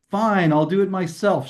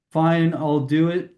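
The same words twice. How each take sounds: First: "Fine, I'll do it myself" with a firm push on "myself"; stress on myself. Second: Said in the usual way. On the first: Shown as a demonstration. Teacher demoing the emphasis for students, stressed myself. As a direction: push "myself" a little harder. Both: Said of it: "I can hear the emphasis".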